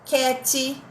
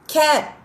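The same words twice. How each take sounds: First: An extra vowel sound follows the final t. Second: The word ends sharply on the final t. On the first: The speaker calls it wrong. "não é cat" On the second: The speaker calls it right. "a gente tem que aprender a cortar"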